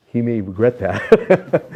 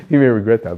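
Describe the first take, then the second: First: Slow, louder words through real laughter; laughing. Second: Louder, punchy repeat of the joke; emphatic repeat. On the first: Guest laughs while joking to the interviewer about Swami, laughing. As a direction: laugh out the words slowly at the joke. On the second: Guest repeats the joke to the interviewer, louder and emphatic. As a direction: land the line firmly, much louder. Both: Real, not acted.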